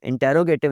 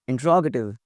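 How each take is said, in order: First: It is said with five syllables, in-te-ro-ga-tive. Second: It is said with four syllables, in-tro-ga-tive. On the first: The speaker calls it wrong. "इंटेरोगेटिव नहीं। बहुत सारे लोग इसको इंटेरोगेटिव कह रहे होते हैं" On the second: The speaker calls it right. "The correct pronunciation of the word is इंट्रोगेटिव"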